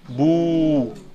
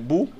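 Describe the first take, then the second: First: The vowel is long and prolonged. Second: The vowel is short. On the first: "Et avec un waw, ça fait bou" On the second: "le ba avec une damma, ça fait bou"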